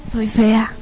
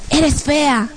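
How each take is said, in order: First: Understated defeated agreement; dejected echo. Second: Higher-pitched demonic taunt; horrible demon voice. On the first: Woman repeating what demons say, dejected. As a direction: echo the insult as your own belief. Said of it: "empiezo a escuchar mi voz". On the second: Demons insulting her looks, horrible voice. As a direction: jeer it like a tormenting demon. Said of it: "unas voces horribles que decían". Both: Retold or imitated.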